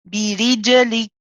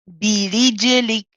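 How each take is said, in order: Both takes have the same delivery.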